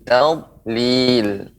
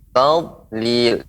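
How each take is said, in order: The two takes are said the same way.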